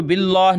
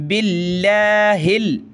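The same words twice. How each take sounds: First: "बिल्लाह" with a thick dark L and aw-like vowel; wrongly heavy Allah. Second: "बिल्लाहिल" with a light L and open, unrounded aa; thin Allah. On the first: Teacher showing what to avoid, "बिल्लाह" thickened like billoh. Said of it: "इसको बिल्लाह नहीं पढ़ेंगे बल्कि". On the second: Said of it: "लफ्ज़ अल्लाह को पतला करेंगे". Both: Shown as a demonstration.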